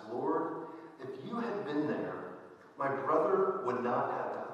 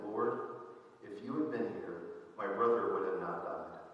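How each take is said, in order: First: Higher, rising cry of grief; emotional plea. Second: Said in the usual way. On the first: Acted. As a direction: let Mary's grief reproach him. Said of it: "Mary is a little bit more emotional".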